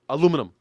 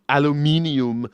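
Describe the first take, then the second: First: The word is said with four syllables. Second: The word is said with five syllables. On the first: "It's more fun to say. It's it's faster" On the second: "that extra extra syllable in there"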